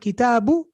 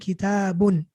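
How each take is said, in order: First: The word ends on a short vowel. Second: The word ends with an added n sound. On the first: "instead of kitabu" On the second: "I'm pronouncing a noon"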